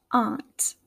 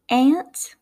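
First: "aunt" with an open "ahnt" vowel; Midwestern pronunciation. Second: "aunt" said like the insect "ant"; Southern pronunciation. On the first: Teacher contrasting accents, "aunt" said Midwestern as "ahnt". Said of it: "in my Midwestern accent". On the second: Teacher contrasting accents, "aunt" said Southern as "ant". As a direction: say "aunt" with the vowel of cat. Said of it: "in the Southern accent". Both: Shown as a demonstration.

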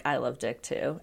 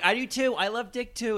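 First: Low, soft retold agreement; Snooki. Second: High, eager chiming in; Dina. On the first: Recapping a housemate's confession to co-hosts, low and understated. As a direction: quote it quietly and low. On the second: Retold or imitated. Mimicking a housemate eagerly agreeing, high and excited. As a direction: pipe up in an excited mock-girlish pitch.

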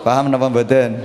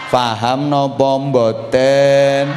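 First: Said in the usual way. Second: Very slow, stretched-out check on the audience; drawn-out question. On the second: Real, not acted. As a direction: stretch every word of the question. (pitakon alon, diulur-ulur)

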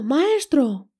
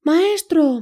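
First: Screaming. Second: High loud scream for help. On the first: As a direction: call out again, less forceful. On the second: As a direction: shriek it out in alarm. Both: A narrator's reading. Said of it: "El arpa comenzó a gritar".

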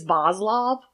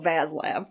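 First: "Vaslov" with broad ah in both syllables, VAHZ-lahv; "Vaslov" said the European way, rounded open vowels; correct-sounding pronunciation. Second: "Vaslav" with flat Buffalo a, VAZZ-lav; Buffalo-accented "Vaslav", both vowels as in "cat". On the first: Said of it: "gonna say this wrong". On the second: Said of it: "like I live in Buffalo". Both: Shown as a demonstration.

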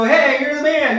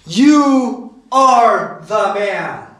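First: Quick, higher-pitched congratulatory call; casual praise. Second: Slow, weighty accusation, word by word; lowering the boom. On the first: Retold or imitated. People today cheering a buddy, casually admiring. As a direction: toss out a breezy compliment, imitating modern slang. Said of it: "positive connotation". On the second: Acted. Prophet confronting David over his sin, slow and damning. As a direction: spell out the verdict deliberately, no praise in it. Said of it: "Nathan just basically lowers the boom on him".

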